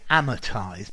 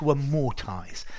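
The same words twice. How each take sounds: First: It is said in an American accent. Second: It is said in a British accent. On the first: "I hear the Americans saying amortize" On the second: "but I would say to amortize"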